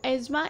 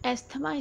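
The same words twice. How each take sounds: First: The 'th' sound is left out entirely. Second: The 'th' sound is clearly pronounced. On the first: The speaker calls it right. "asthma is the right pronunciation of it. ... th is silent in this" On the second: The speaker calls it wrong. "asthma इसको नहीं पढ़ना है"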